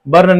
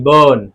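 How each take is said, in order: First: बर्न with the r sounded; wrong take with R. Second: बर्न said as bən, no r; silent r demo. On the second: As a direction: drop the r in बर्न. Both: Shown as a demonstration. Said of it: "बर्न नहीं".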